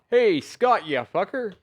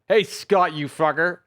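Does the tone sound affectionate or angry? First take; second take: affectionate; angry. First: It is said warmly, happy to see him. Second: It is said angrily, wanting to hit him.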